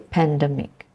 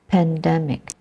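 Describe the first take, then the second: First: The first syllable is not stressed. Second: The stress is on the first syllable. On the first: The speaker calls it wrong. "I've heard people say pandemic" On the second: The speaker calls it right. "The stress is in the first syllable"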